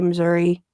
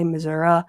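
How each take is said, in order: First: The word ends with an 'ee' sound. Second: The word ends with an 'uh' sound. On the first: The speaker is from the north. "people who live, like, closer to the north, say" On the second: The speaker is from the south. "people closer to the south, say"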